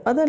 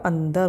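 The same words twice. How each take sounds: First: अदर said without the nasal, a-dar; अदर read plainly with no nasal; wrong reading adar. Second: अंदर with the nasal n, an-dar; अंदर with the n sounded; correct andar. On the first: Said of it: "अदर नहीं होता". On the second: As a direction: say अंदर with a clear nasal before d. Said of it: "ये हमारा अंदर होता है". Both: Shown as a demonstration.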